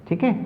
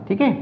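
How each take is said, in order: Both takes have the same delivery.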